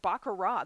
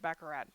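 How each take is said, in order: First: The final T sound is left silent. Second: The final T sound is pronounced. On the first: "They don't even say the T at the end" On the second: "I think I've always said baccarat, but I'm also a Midwesterner"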